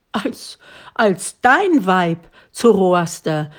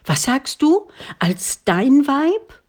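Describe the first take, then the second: First: Put-on an old father stammering at unexpected news; stammering disbelief. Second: Much higher, rising astonished question; old father crying out, stunned by the marriage proposal. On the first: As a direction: stumble over it as if you misheard. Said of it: "rief der Alte, der glaubte, nicht richtig verstanden zu haben". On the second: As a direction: blurt it out in sheer disbelief. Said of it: "nicht richtig verstanden zu haben". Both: A narrator's reading.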